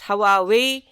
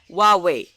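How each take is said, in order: First: The starting H sound is clearly pronounced. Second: The starting H sound is nearly silent. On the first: The speaker calls it wrong. "That's not how you do it" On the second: The speaker calls it right. "That H is a bit silent here"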